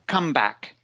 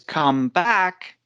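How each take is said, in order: First: The stress falls on the first word. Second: The stress falls on the second word. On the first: It is used as a noun. "putting stress on the first part of the word" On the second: It is used as a verb. "phrasal verb is come back"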